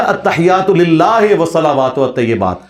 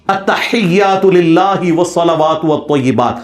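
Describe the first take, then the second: First: Imitated loose reading of التحیات, للہ ending "lillahe"; مجہول imitation. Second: Very slow, careful التحیات with full Arabic sounds and pure i in للہ; معروف recitation. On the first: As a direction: mimic the cleric: e sounds in للہ and والطیبات. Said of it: "وہ پڑھے گا". (مولوی کی نقل، للہ کو "للاہے" مجہول پڑھنا) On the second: Shown as a demonstration. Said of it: "نماز بھی معروف طریقے سے نہیں سنا سکتا". (التحیات کو معروف طریقے سے ٹھہر ٹھہر کر پڑھنا)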